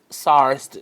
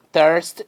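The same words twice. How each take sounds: First: "thirst" said as "sarst", an s in place of the th and an open a; another way to say thirst. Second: "thirst" said as "tirst", a hard t in place of the th; one way to say thirst. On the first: Teacher demonstrates the other common pronunciation. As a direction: start "thirst" with an s and open the vowel. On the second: Teacher demonstrates one pronunciation to her pupils. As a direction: start "thirst" with a plain t sound. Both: Shown as a demonstration. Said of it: "Muitas, muitas pessoas dizem thirst".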